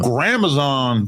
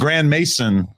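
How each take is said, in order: First: The name is said with a foreign-sounding pronunciation. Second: The name is said with a plain English pronunciation. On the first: "very foreign" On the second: "it's easier for people to spell it when I say it"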